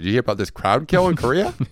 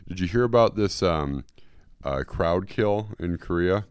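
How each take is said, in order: First: It is said in a put-on talk-show-host voice. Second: It is said in the speaker's normal voice.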